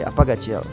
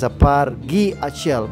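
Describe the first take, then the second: First: The words run together into one contracted word. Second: Every word is said separately in full. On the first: This is how people naturally say it. The speaker calls it right. "we say Apagachiel. So I'll go with the natural way" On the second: This is the original, formal form. The speaker calls it wrong. "The original version is Apar Gi Achiel, but naturally we don't say this"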